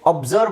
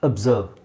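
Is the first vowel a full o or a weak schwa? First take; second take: full o; schwa. First: The first vowel is a full o sound. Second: The first vowel is a weak schwa sound. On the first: The speaker calls it wrong. "ಇದು ಅಬ್ಸರ್ವ್ ಅಲ್ಲ" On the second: The speaker calls it right. "ಓಗೆ ನೋಡಿ ಅ sound, short ಅ"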